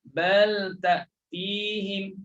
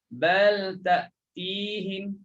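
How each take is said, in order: The two takes are said the same way.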